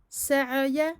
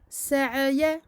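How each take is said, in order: Both takes have the same delivery.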